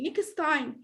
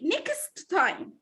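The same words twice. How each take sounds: First: The t at the end of next is dropped. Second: The t at the end of next is heard. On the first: The speaker calls it right. "as if I have only one" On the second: The speaker calls it wrong. "it's supposed not to say next time"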